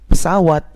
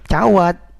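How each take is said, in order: First: The word is said in full with all syllables. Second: The word is clipped and starts with ch. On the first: The speaker calls it right. "semua yang saya sebut dengan bahasa yang benar" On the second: The speaker calls it wrong. "Kalau bapak-bapak biasanya cawat"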